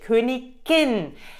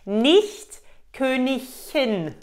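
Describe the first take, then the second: First: The middle is said with a hard g sound. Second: The middle is said without a hard g sound. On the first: The speaker calls it right. "für Königin ist nur Königin richtig" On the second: The speaker calls it wrong. "Nicht Königin. Nein ... Falsch"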